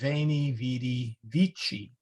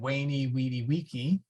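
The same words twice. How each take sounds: First: Each word begins with a V sound. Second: Each word begins with a W sound. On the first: This is the ecclesiastical Latin pronunciation. "But Pope Benedict would have said" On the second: This is the classical Latin pronunciation. "Caesar would have said"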